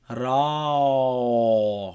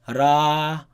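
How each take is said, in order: First: The r sound is heavy and deep. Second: The r sound is light and thin. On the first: The speaker calls it right. "Rather raw, ... So the heavy sound is produced" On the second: The speaker calls it wrong. "you don't just say ra"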